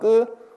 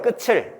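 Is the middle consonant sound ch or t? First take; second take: t; ch. First: The final consonant stays a t sound before the vowel. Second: The final consonant becomes a ch sound before the vowel. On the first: The speaker calls it right. "틀이 맞습니다" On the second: The speaker calls it wrong. "끝을이요 라고 하면 틀렸어요"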